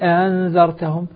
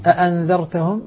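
First: The second hamza is softened and eased. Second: The second hamza is pronounced fully.

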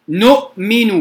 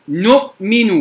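No difference in how they are said.

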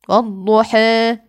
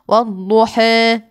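Both takes have the same delivery.

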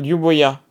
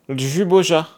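First: The name is pronounced the Serbian way. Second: The name is pronounced the French way. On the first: The speaker calls it right. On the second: The speaker calls it wrong.

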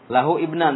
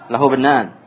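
First: The words are separate, with the i sounded. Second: The words run together, with the i dropped. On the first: "Kalau mau satu-satu, diparsialkan gitu. Dipecah-pecah" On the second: "Tapi kalau yang bacaan yang betul"

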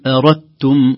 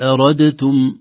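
First: The d merges into a doubled t sound. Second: The d is pronounced separately before the t. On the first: The speaker calls it right. "نقول إن أردتم" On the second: The speaker calls it wrong. "وليست أردتم"

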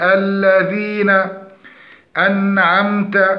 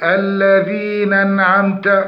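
First: A clear glottal stop begins the second word. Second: The second word begins with no glottal stop. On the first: The speaker calls it right. "فنقول الذين أنعمت" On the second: The speaker calls it wrong. "فمن اللحون عدم تحقيق نطق همزة القطع، فيقول"

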